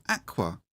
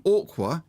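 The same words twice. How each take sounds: First: "aqua" with a flat a, as "akwa"; standard pronunciation. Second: "aqua" said as "orkwa", with an open o; son's pronunciation. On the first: Shown as a demonstration. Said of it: "it's aqua". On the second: Retold or imitated. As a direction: imitate the son: "aqua" like "orkwa". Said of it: "you're saying aqua".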